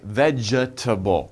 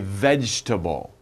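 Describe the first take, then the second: First: The middle 'e' sound is clearly pronounced. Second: The middle 'e' sound is dropped entirely. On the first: The speaker calls it wrong. "it looks like vegetable, but no" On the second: The speaker calls it right. "it sounds like you don't say E"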